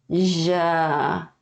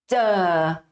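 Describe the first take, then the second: First: The consonant flows out continuously without any closure. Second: The consonant starts with a brief closure, then releases. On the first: "o som de J é J" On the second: "Esse é o som de tiut"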